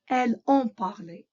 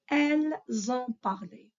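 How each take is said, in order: First: Elles and ont are said apart without z. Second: Elles and ont are linked with a z sound. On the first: The speaker calls it wrong. "It's correct, it's acceptable, but it's not natural" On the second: The speaker calls it right. "You hear me saying zon"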